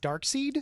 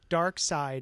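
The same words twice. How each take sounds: First: The second part sounds like 'seed'. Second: The second part sounds like 'side'.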